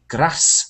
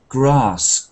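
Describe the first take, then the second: First: It is said with a northern English accent. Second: It is said with a southern English accent. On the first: "in the north, um, they speak in Yorkshire and Scotland. They say" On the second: "in Oxford, Cambridge, and London English, they try to use this pronunciation of"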